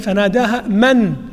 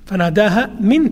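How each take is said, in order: First: The word after fanadaha is said as man. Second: The word after fanadaha is said as min. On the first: The one below her called out. "القراءة الأخرى الثابتة فناداها من يعني الشخص الذي تحتها" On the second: The call came from below her. "التي نقرأها الآن رواية حفص عن عاصم"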